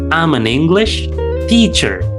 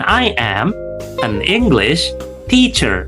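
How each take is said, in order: First: I and am are joined into one quick syllable. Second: I and am are said separately and longer. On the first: The speaker calls it right. "bacanya seperti ini" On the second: The speaker calls it wrong. "itu terlalu panjang ya"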